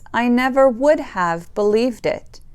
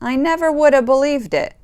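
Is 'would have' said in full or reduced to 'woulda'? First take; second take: full; reduced. First: 'Would have' is said in full. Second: 'Would have' is reduced to 'woulda'.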